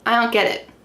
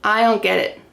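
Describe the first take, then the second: First: The D in don't is dropped. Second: The same.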